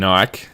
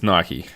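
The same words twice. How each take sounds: First: It is said the Australian way. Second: It is said the American way. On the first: The speaker calls it wrong. "Australians say" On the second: The speaker calls it right. "but it's"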